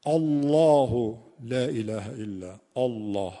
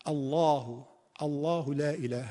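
First: الله with a thick, heavy hamza, slow. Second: الله with a thin, light hamza. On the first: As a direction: read الله with a darkened hamza, drawn out. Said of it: "همزه رو درشت نباید بگید". (همزهٔ درشت در الله) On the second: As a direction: keep the hamza of الله clear, not dark. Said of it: "همزه دیگه نباید تفخیم بشه". (همزهٔ نازک در الله) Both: Shown as a demonstration.

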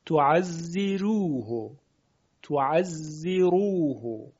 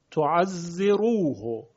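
First: «تعزروه» slow, with a light thinned ر in "ziru"; slow model of «تعزروه» with thin ر; Warsh tarqiq. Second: Said in the usual way. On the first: Shown as a demonstration.

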